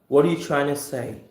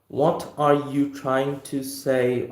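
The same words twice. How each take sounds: First: The words 'trying to' blend, sounding like 'China'. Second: The words 'trying to' are said in full. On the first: "trying to when gets connected together forms as something which sounds like China" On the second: "instead of the way of saying"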